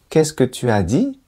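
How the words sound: It rises clearly, sounding confused.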